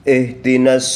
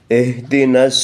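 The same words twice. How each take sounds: Both takes have the same delivery.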